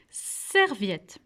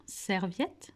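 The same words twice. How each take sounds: First: "serviette." with a long, drawn-out "ser"; first syllable highlighted. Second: Said in the usual way. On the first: Shown as a demonstration. Teacher showing the shared syllable, "serviette." with its start held. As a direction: stretch the opening of "serviette." before finishing it. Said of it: "ça commence par la syllabe serre". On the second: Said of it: "Est-ce que vous pouvez me dire pourquoi".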